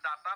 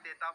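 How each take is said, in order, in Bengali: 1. প্রথম স্বরধ্বনিটি 'ah'-এর মতো শোনায়। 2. প্রথম স্বরধ্বনিটি 'ay'-এর মতো শোনায়। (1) "এইটো ডাটা নহয়" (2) "ডেটা বুলি প্ৰনাউন্সিয়েশ্যন কৰা হয়"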